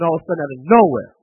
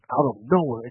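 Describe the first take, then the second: First: Louder and faster, pushing out of nowhere; sudden emphasis. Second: Said in the usual way. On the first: Acted. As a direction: hit out of nowhere hard and quick, like a blow. Building suspense on sudden loss.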